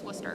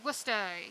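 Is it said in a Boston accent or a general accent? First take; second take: general; Boston. First: It is said with a general accent. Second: It is said with a Boston accent.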